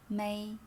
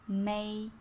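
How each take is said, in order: The two takes are said the same way.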